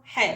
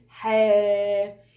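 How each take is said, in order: First: حا said with a quick vowel; short vowel. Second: حا held long on a level note; long vowel. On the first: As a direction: say حا short, no stretching. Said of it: "قصيرة". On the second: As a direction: stretch the vowel of حا. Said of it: "عاوزة أطولها". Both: Shown as a demonstration.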